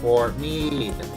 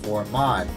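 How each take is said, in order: First: The second word rhymes with 'need'. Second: The second word rhymes with 'odd'. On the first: The speaker calls it right. "it's pronounced Fort Meade" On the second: The speaker calls it wrong. "accidentally pronounced this as Fort Maud"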